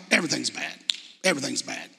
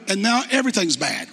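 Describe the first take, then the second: First: Much softer, dropping, "Everything's bad" moped out; mock gloomy mope. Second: Said in the usual way. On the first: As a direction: sulk it like a self-pitying kid, trailing off. Mopey phrase repeated.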